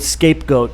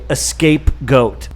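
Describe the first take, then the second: First: The word starts directly with an s sound. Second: The word starts with an added vowel sound. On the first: The speaker calls it right. "instead of saying the word scapegoat" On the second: The speaker calls it wrong. "they say escape goat"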